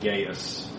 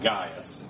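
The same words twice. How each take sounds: First: The first vowel has an anglicized English sound. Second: The first vowel sounds like the word 'eye'. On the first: "these things get anglicized, so a lot of people say Gaius" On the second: "A-I... in Latin and Greek are both pronounced I, so it would be like Gaius if it was Latin"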